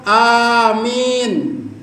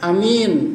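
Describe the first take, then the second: First: The first vowel is long. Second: The first vowel is short. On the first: It asks God to grant the prayer. "ya Allah kabulkanlah" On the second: It is a title meaning trustworthy. "Ada juga a-nya tidak panjang"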